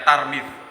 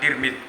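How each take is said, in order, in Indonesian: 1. Vokal pertama itu a. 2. Vokal pertama itu i. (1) "membaca Tarmidz dengan tak fathah" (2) "diucapkan Tirmidz dengan tak kasroh"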